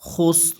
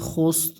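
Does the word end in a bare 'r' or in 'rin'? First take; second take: bare r; bare r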